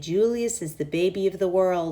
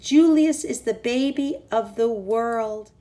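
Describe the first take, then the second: First: It is said quietly. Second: It is said loudly.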